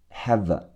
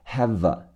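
First: Said in the usual way. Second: "have a" run together smoothly as one word, "hava"; teacher links "have a" with no break; linked have a. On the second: Shown as a demonstration. Teacher demonstrating linking to students, "have a" run together as one word. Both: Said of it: "have的V和后面的呃要连起来".

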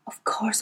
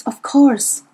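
First: Murmured aside. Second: Breathy whispered realisation. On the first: Murmured musing. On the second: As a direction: whisper to herself. Whispered musing. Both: A narrator's reading.

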